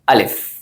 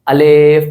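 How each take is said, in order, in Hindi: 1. शब्द मुलायम, नरम और एक समान गति से है। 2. शब्द धीमा और खिंचा हुआ है। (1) "सिंपली पोलाइटली वे में" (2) "थोड़ा सा टाइम लगा रहे होते हैं"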